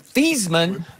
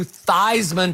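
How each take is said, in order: First: The name does not rhyme with Heisman. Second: The name rhymes with Heisman. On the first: This is the original family pronunciation. "changed the pronunciation of his last name from Thiesman" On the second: This is the changed pronunciation used for publicity. "to Theismann to rhyme with Heisman"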